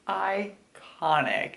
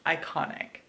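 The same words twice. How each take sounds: First: Iconic said very slowly, falling; drawn out. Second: Said in the usual way. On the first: Shown as a demonstration. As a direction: stretch out Iconic, savoring it.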